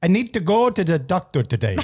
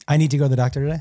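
First: It is said in an attempted Jamaican accent. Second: It is said in the speaker's normal accent.

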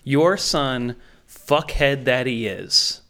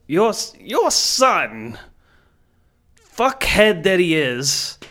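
First: It is said flatly, with no emotion. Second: It is said with simmering, held-back anger.

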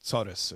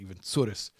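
First: The word is said quickly with slurred sounds. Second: The word is said with a different regional accent. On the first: "we slur it, and we say it fast" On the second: "or some people's accent"

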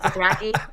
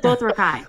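First: The last syllable does not rhyme with 'kai'. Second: The last syllable rhymes with 'kai'. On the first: "isn't that how he says Dothraki?" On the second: "He says Dothrakai. Like Cobra Kai"

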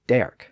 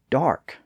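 First: The vowel sounds like 'air'. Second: The vowel sounds like 'ar'. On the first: This is the older pronunciation. "previously pronounced derk" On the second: This is the later pronunciation. "the words that kept the newer R sound"

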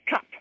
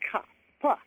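First: The word ends in a short, clipped final consonant. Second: The word is stretched, with the final consonant strongly released. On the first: "she'd say cup" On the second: "she'd stretch out and enunciate those hard consonants"

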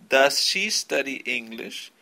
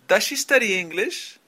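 First: Each word is said separately, one by one. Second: The words run together without breaks between them. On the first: The speaker calls it wrong. "de forma no natural, es decir, palabra por palabra" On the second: The speaker calls it right. "Vamos a unir el sonido de el do y el does con el sujeto"

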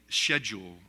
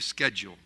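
First: It is said with a British pronunciation. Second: It is said with an American pronunciation.

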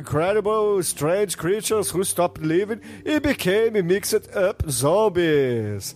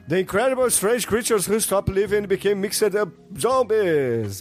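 First: It is said at a normal speed. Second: It is said quickly.

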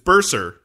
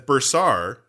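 First: The last syllable has a reduced, weak vowel. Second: The last syllable has a clear, full 'ar' vowel. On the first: "that's with an E" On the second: "I'm enunciating it differently so you can hear that there's an A there"

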